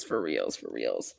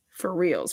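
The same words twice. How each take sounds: First: Much lower, softer mock bass voice; deep voice. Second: Said in the usual way. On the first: Shown as a demonstration. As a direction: sink into a comic deep growl. Repeats phrase, dropping voice.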